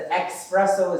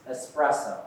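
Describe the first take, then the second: First: ESPRESSO said loudly as "ex-presso"; wrong X pronunciation. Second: ESPRESSO starting "ess"; correct S pronunciation. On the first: Teacher rejects the mistake, loudly saying ex-presso. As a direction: put a K sound in "espresso": ex-presso. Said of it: "is not a word". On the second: Teacher gives the right word, starting with ess. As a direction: say "espresso" with no K sound. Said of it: "It's espresso". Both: Shown as a demonstration.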